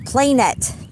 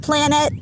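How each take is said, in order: First: The first syllable sounds like 'plane'. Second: The first syllable sounds like 'plan'. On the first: It is a small version of a flat plane. The speaker calls it right. "It's the smaller, walled off version of the larger plane" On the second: It is a round world. The speaker calls it wrong. "it's not a planet"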